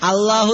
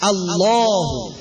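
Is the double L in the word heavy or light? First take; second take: light; heavy. First: The double L is thin and light. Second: The double L is full and heavy. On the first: The speaker calls it wrong. "എന്നിങ്ങനെ മലർത്തി പറയും ചിലര്" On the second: The speaker calls it right. "പറയേണ്ടത് വായി നിറച്ചാണ്"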